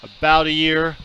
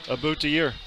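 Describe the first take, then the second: First: It is said in a plain accent. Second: It is said in a Minnesota accent.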